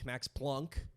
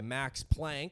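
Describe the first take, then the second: First: The vowel sounds like the one in 'plunk'. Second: The vowel sounds like the one in 'plank'. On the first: "They pronounce it Plunk" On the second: "but it's spelled P L A N C K"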